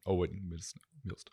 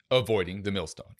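First: "Avoiding the Millstone" said softer as a fading echo; quiet echo of "Millstone"; echo effect. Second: Said in the usual way. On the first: Shown as a demonstration. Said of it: "The echo thing". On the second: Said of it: "I can't do it like you can".

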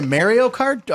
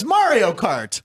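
First: "Mario" said as "MAIR-ee-oh"; first vowel of "Mario" like "merry"; regional mispronunciation. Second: "Mario" drawn out as "MAR-ee-oh"; corrected pronunciation. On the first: Retold or imitated. Host querying co-host's slip on the game name, "Mario" said MAIR-ee-oh. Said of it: "people of a certain city pronounce". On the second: Shown as a demonstration. Host correcting co-host's slip, "Mario" said slowly as MAH-ree-oh. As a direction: open "ah" in the first syllable of "Mario", slowly. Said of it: "Jerry, how's it pronounced?".

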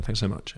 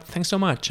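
First: Said in the usual way. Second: Higher, softer polite American thanks; high, soft polite sign-off; American auditioner's thanks. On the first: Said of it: "in my normal voice". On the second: Retold or imitated. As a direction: imitate an American thanking an actor after an audition. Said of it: "And they'd be like".

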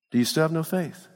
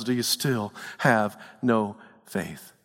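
First: Said in the usual way. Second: Low, soft, slow tender question; Jesus gently rebuking the fearful; gentle rebuke. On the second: Acted. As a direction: ask it like a patient, loving teacher. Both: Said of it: "Jesus says to us".

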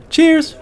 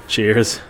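First: Very high, cheery toast; bright toast. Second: Said in the usual way. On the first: A narrator's reading. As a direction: raise a glass with a high cheer. Ayala toasting.

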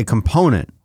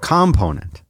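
First: "component" stressed on the middle syllable, com-PO-nent; usual stress. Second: "Component" said COM-ponent; first-syllable stress. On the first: Co-host quoting how you say component, stress on the middle syllable. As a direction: lean on PO in "component". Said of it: "but you say component". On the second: Co-host arguing for consistency, first-syllable stress on "Component". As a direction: hit COM at the start of "Component". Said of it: "emphasis on the first syllable". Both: Shown as a demonstration.

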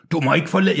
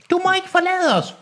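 First: Moderately raised storybook cry; a woman's cry left close to the reader's own voice; too-manly female character's shout. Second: Very high falsetto cry; Enola's shout. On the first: Girl begging him not to leave, mannish raised call. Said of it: "hun råber meget mandigt". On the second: Enola begging him not to leave, falsetto cry. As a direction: leap into falsetto to set her apart. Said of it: "råbte Enola". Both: A narrator's reading.

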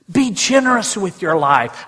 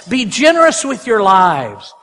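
First: Said in the usual way. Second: "generous" leaned on, slowed down; slower, heavier second reading of the line; slow, weighty repeat. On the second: Shown as a demonstration. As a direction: press the line home slowly for emphasis. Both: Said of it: "I love that".

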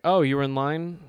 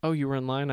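First: Louder, surprised question; imitating a surprised clerk; mock surprise. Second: A lighter repeat of the clerk's surprised question; mild imitation of the clerk; mock surprise. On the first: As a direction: play the clerk caught off guard. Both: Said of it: "The guy ringing me up".

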